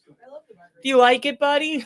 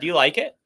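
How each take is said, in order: First: High, loud, slow dog-talk voice. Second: Said in the usual way. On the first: Acted. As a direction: coo it up high like praising your dog. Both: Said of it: "sound like he's talking to his dog".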